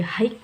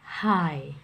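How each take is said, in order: First: High with the g sounded, rising; wrong high. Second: High said as plain hai, falling; correct high. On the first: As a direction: say high as if the gh were read. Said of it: "jadi bukan dibaca high". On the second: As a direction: say high with silent gh. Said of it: "tetapi dibacanya". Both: Shown as a demonstration.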